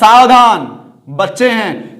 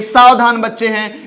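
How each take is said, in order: First: The first word is exclaimed, then a pause follows. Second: All three words run together without a pause. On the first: A warning to be careful because children are inside. The speaker calls it right. "इस तरह का अगर चिन्ह लग गया तो यहां क्या हो जाएगा" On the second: A statement that the children are careful. The speaker calls it wrong. "चिन्ह नहीं लगा हुआ है तो सीधा हम पढ़ेंगे"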